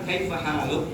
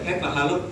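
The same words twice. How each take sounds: First: The vowel after h is held long. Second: The vowel after h is cut short. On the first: The speaker calls it right. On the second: The speaker calls it wrong. "udah kurang itu satu huruf"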